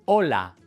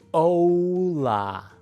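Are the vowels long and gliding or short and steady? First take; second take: short steady; long gliding. First: The vowels are short and steady. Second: The vowels are long and glide. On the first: The speaker calls it right. "en español las vocales son cortas y no cambian" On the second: The speaker calls it wrong. "En inglés las vocales son largas y cambian un poco"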